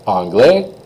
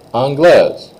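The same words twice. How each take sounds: First: Rising anglais, S left off; silent S. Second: High, loud anglaise ending in Z. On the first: Teacher leads students in repeating, anglais without S. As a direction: say anglais open-ended for repetition. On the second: Teacher leads students in repeating, anglaise with Z. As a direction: punch anglaise down onto its Z. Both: Shown as a demonstration. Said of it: "just say them with me here".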